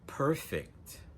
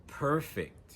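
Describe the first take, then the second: First: The stress is on the first syllable. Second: The same.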